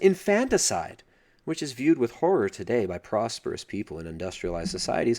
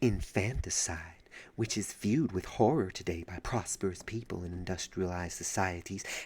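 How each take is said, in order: First: It is read in the speaker's normal voice. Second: It is read in an imitated, put-on voice.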